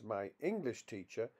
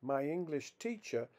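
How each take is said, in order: First: "my English teacher" as a compound, main stress on "English". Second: "My English teacher" as a phrase, main stress on "teacher". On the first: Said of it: "is classified as a compound". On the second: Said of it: "is classified as a phrase". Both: Shown as a demonstration.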